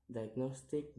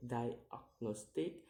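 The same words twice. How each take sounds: First: Said in the usual way. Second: "diagnostic" slowly split into syllables; slow, separated syllables on "diagnostic". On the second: Shown as a demonstration. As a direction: sound out "diagnostic" piece by piece. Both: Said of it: "count the word syllable backwards".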